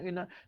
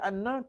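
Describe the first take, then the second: First: The first vowel is an 'i' sound. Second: The first vowel is an 'a' sound. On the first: This is the word's basic form. "Asal dia inna" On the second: The word stands in the position of a verbal noun. "Tapi kena baca anna"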